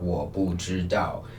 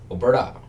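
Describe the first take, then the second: First: It is said in a standard Mandarin accent. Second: It is said in a regional hometown accent. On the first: "in standard Mandarin" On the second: "in my hometown accent"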